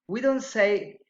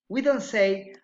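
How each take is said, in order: No difference in how they are said.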